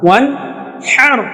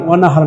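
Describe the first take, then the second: First: The last syllable has a fronted 'ae' vowel. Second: The last syllable has an open back 'ah' vowel. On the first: The speaker calls it right. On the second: The speaker calls it wrong. "আমরা যে ভুলটা করি এখানে ওয়ান হার বলি, ওয়ান হার না"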